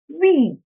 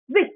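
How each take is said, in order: First: The vowel is said long. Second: The vowel is said short. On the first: The speaker calls it right. "the last word was supposed to be week" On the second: The speaker calls it wrong. "you pronounce it as wick"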